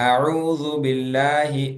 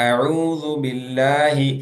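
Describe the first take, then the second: Both takes have the same delivery.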